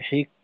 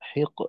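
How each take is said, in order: First: The final consonant ends flat without release. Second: The final consonant ends with a bouncing release. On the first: The speaker calls it wrong. "হিক বললে তখন কিন্তু কাফ বোঝা যায়" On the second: The speaker calls it right. "শেষে একটু ধাক্কা থাকবে"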